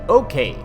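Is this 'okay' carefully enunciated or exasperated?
enunciated. It is said crisply and carefully, without frustration. The speaker calls it wrong. "That was really just enunciated"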